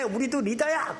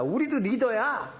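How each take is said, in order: First: Said in the usual way. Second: Defiant, slow 우리도 리더야 with a falling end; a hint of a sulky rebel; defiant claim. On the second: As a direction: push back stubbornly with 우리도 리더야. Miriam and Aaron claim leadership.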